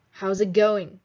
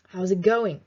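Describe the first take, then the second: First: "How's it going?" with the pitch falling on "going"; falling tune. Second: "How's it going?" dropping firmly on "going"; falling tune. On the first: Teacher modelling the question, falling on "going". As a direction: let "going" drop down at the end. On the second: Teacher repeating the question for the class, tune falling. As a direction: bring "going" down at the end. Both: Shown as a demonstration. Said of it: "your intonation goes down".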